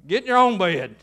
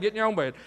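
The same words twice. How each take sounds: First: Loud, firm send-off to bed; stern parental order. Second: Said in the usual way. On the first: Acted. Parent sending child back to bed, loud and stern. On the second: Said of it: "That's what Eli was saying".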